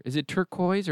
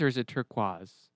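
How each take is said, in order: First: Turquoise ending in a "koyz" sound; first pronunciation option. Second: Turquoise ending in a "kwahz" sound; alternative pronunciation. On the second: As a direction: say turquoise as TUR-kwahz, French-style. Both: Shown as a demonstration.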